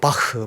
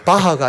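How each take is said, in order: First: The word ends in a short 'eu' vowel. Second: The word ends in a full 'ah' vowel. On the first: This is the German-style way experts use. The speaker calls it right. "바흐 뭐 이런" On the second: This is the everyday Korean way of saying it. The speaker calls it wrong. "바하가 아니고"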